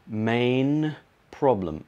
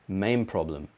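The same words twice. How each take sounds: First: The word 'main' ends with an N sound. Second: The word 'main' ends with an M sound. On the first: "Let's try it with a N" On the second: "main problem with a M"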